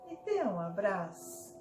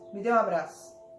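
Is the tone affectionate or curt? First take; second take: affectionate; curt. First: It is said in a warm, affectionate tone. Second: It is said in a dry, curt tone. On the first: "o tom de voz ele é mais amoroso" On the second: "mais seco"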